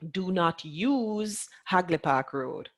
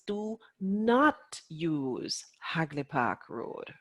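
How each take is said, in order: First: The word use carries the main stress. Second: The word not carries the main stress. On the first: The speaker calls it wrong. "They're stressing the use" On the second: The speaker calls it right. "the important part of the sentence"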